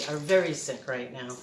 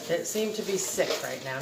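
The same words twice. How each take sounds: First: Very leaned on to correct seem; stress on very. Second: Said in the usual way. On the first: Shown as a demonstration. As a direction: push very, not seem to be. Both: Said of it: "Not seem to be".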